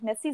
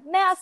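First: Said in the usual way. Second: "Merci" high and punched on the first syllable; Swiss pronunciation. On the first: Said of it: "sie sagen doch nicht". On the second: Shown as a demonstration. Showing how the Swiss really say it, high punched "Merci". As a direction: say "Merci" the mock Swiss way, pitched up.

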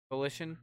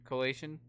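First: "Coalition" tried as co-LISH-un, questioning; unsure pronunciation. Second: "Coalition" tried as co-LAY-shun, questioning; unsure mispronunciation. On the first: Host testing how "Coalition" is said, co-LISH-un with doubtful rise. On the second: Host testing how "Coalition" is said, co-LAY-shun with doubtful rise. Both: Real, not acted. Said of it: "can say this fucking".

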